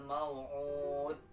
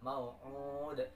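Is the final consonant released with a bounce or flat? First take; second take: flat; bounce. First: The final consonant stops flat with no bounce. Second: The final consonant is released with a bounce. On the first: The speaker calls it wrong. "Contoh yang salah ... tidak ada qalqalah atau tidak memantul pada huruf dal" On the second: The speaker calls it right. "memantul mau'ud"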